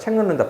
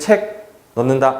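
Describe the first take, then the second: First: The two words are run together without a break. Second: The two words are said separately with a break. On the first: The speaker calls it right. "붙여서 읽죠" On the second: The speaker calls it wrong. "이렇게 안 하잖아요"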